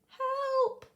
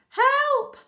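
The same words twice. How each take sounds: First: It is said quietly. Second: It is said loudly.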